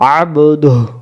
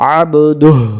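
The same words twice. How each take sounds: No difference in how they are said.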